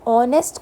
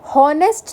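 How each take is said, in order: First: The word starts with a vowel, no h sound. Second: The word starts with a clear h sound. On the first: The speaker calls it right. "ऑनेस्ट में जो एच है ये silent है" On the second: The speaker calls it wrong. "हम हॉनेस्ट नहीं बोलते"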